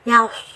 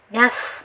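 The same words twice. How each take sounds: First: The consonant is thick, tongue back raised. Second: The consonant is thin, tongue back flat. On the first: The speaker calls it right. "Jadi tebal. Jadi suaranya yas" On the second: The speaker calls it wrong. "yas itu tipis"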